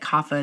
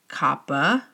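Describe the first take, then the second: First: The word is said in its modern evolved form. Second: The word is said in its original Sanskrit form. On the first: It follows how the language has changed. "acknowledge how language evolves, and that kapha is actually okay" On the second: It follows the old source language. "be true to the original Sanskrit language, you could pronounce it kappa"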